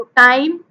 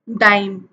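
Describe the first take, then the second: First: टाइम with a crisp T and a slight rise, set against dime; minimal pair time. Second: डाइम with a voiced D, lower and falling; minimal pair dime. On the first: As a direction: say टाइम with a clear unvoiced T, lifting at the end. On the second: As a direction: say डाइम with a voiced retroflex D, dropping the pitch. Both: Shown as a demonstration. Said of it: "आप खुद बोल के देख लो".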